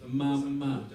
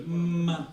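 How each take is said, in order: First: Said in the usual way. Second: "Mama" said with lips pressed shut, then opened; a clear demo of "Mama" from closed lips; lips together mama. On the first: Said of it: "you just go". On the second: Shown as a demonstration. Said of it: "putting your lips together and go".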